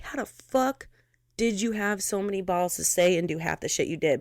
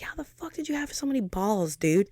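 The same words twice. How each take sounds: First: Said in the usual way. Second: Incredulous at herself. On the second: Retold or imitated. Looking back on her past nerve, disbelieving. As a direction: ask your younger self, amazed. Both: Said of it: "sometimes I look back and I'm like".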